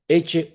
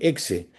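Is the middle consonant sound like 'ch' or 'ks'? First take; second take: ch; ks. First: The middle consonant sounds like 'ch'. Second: The middle consonant sounds like 'ks'. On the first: It is read the Latin way. The speaker calls it right. "la pronunciación en latín suena como una che" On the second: It is read as if it were Spanish. The speaker calls it wrong. "lo lee en castellano, que le dicen exe"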